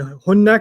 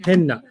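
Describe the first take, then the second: First: The first vowel is an 'oo' sound. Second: The first vowel is an 'eh' sound. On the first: "hunna can sometimes sound like" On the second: "sound like"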